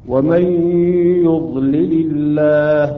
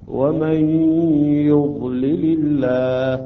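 The two takes are said the same way.

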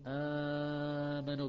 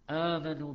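First: The first long vowel is held for four counts. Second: The first long vowel is held for two counts. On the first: "بأربع حركات" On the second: "بحركتين"

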